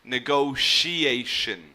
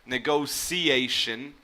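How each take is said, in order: First: The middle consonant is an SH sound. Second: The middle consonant is an S sound. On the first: "or you would hear it with like an S H sound" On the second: "so with like a C or an S sound in the middle"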